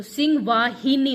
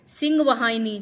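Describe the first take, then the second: First: वाहिनी as vaa-hi-ni; correct form. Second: वाहिनी said as va-haini; wrong form. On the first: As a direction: clear i after ह in वाहिनी. (सही उच्चारण, वाहिनी में इ) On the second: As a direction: put an ai after ह in वाहिनी. (गलत उच्चारण, वाहिनी में ऐ) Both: Shown as a demonstration. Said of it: "तो सिंह वाहिनी होता है".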